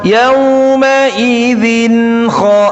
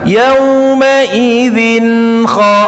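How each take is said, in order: Both takes have the same delivery.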